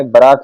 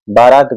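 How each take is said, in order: First: बारात with a short first vowel, bə-raat; correct form. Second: बारात with a long first a, baa-raat; wrong form. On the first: Teacher gives students the right form, short first vowel in बारात. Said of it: "सही है". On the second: Teacher marks the wrong form for students, long a in बारात. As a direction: stretch the first vowel of बारात. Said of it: "गलत है". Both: Shown as a demonstration.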